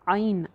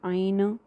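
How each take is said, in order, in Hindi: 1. आख़िरी n की आवाज़ नरम है, बाउंस नहीं। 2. आख़िरी n की आवाज़ साफ़ बाउंस करके निकलती है। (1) "आगे नून साइलेंट" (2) "नून को बाउंस नहीं करना, आइन ऐसे नहीं करना"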